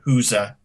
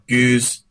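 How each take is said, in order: First: It is said as two syllables, like huza. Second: It is said as one syllable, like goose. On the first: "sounds at least something like a huza" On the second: "One is uh, goose"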